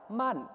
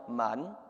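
First: Man with the right Thai tone. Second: Man on a low Thai tone; lower tone. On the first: Pastor teaching a Thai tone, level tone. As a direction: say man with the engagement tone. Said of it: "the word for engagement in Thai is". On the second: Pastor demonstrating the wrong Thai tone, low tone. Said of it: "he chose the lower tone". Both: Shown as a demonstration.

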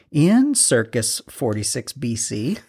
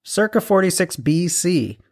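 First: "Circus" said for circa, ending in an s; joke mispronunciation. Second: "Circa" said properly, ending in an open ah; corrected pronunciation. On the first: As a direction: deliberately say "Circus", like the big top. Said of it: "It's just funny when people say circus". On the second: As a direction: say "Circa" with no final s. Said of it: "it's circa". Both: Real, not acted.

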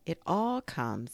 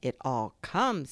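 First: Mildly cross, slow complaint. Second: Slow, mildly stern correction. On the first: Pooh blaming Rabbit's small front door, cross. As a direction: grumble slowly, shifting the blame. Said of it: "said Pooh crossly". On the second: Rabbit correcting Pooh about the cause, stern. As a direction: throw the blame back, slowly and firmly. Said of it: "said Rabbit sternly". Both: A narrator's reading.

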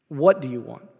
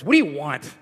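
First: Said in the usual way. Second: Rough, put-out demand; gruff voice. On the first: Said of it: "He asks". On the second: Retold or imitated. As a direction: bark it like an annoyed man. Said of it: "read Jesus' question with a gruff voice".

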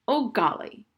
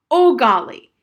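First: Exclaimed a touch loudly, higher; mildly loud. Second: Loud, high, furious outburst. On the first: Harriet trying to get through to Old Golly, mildly loud. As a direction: call the name with mild force. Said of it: "Harriet said loudly". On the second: Harriet at the end of her patience with Old Golly, furious. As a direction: shout the name in sheer exasperation. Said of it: "She was really furious". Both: A narrator's reading.

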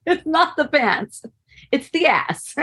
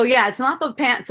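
First: "It's not the pants" said slowly, with a rise in pitch on "not"; drawn out with amused emphasis; slow, emphatic punchline. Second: Said in the usual way. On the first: Retold or imitated. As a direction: spell out "It's the ass" with relish. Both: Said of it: "And I go".

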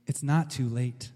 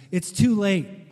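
First: Quiet, steady, with weight on not; Jesus turning to Jairus, calm and reassuring; calm reassurance. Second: A light touch of a breathless servant; hint that he ran to bring bad news; mildly breathless. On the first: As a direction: settle the father's panic gently. Jesus calmly answers the servant. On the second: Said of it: "he said breathlessly". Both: A narrator's reading.

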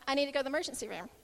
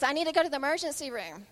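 First: Very fast, offhand retelling; casual, not alarming. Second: Louder, quick imitation of a boy; lightly voiced urgent child; retold son's request. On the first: Retold or imitated. Injured son telling his mom, understated. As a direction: rattle it off as if it were nothing. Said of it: "it was just kinda like". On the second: Injured son telling his mom, mildly urgent. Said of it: "And he says".

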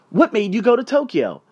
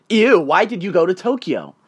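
First: Higher-pitched, inquisitive question; open curiosity. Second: Mild mock disgust, imitating a judgmental stranger. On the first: Acted. Stranger asking a traveler about Tokyo, openly curious. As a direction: ask with open interest, modeling a kinder reaction. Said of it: "ask me". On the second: Stranger's wife judging a traveler at the bar, mock disgust. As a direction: recoil on "Ew", imitating disapproval. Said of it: "giving me the most disgusting look ever".

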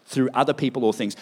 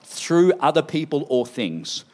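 First: Said in the usual way. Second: Each word of "Through other people or things" spoken slowly and set apart; slow announced heading. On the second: Shown as a demonstration. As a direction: announce the point slowly so the church can repeat it. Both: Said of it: "everyone say number five".

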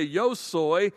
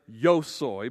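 First: "yo soy" pitched up, pronoun given weight; stressed, insistent "yo soy"; emphatic yo soy. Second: Said in the usual way. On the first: Shown as a demonstration. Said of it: "trying to be emphatic". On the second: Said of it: "you wouldn't have to say".

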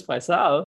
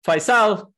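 First: Said in the usual way. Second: Wife calling his name loud and high, wanting something done. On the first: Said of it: "If she says". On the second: Retold or imitated. Wife calling her husband to do a chore, loud demanding call. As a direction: call out Faisal, the first syllable high, falling toward the end. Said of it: "So if she says".

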